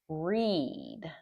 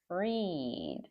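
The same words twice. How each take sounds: First: It is said with the present-tense pronunciation. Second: It is said with the past-tense pronunciation. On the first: The action happens habitually or now. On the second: The action happened in the past.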